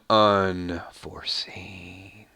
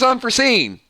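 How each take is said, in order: First: The name is said in a dramatic, menacing way. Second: The name is said in a plain, ordinary way. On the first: The speaker calls it right. "I think it just sounds a little more evil when I do it" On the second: The speaker calls it wrong. "if I just say, ... that doesn't have the same pop to it"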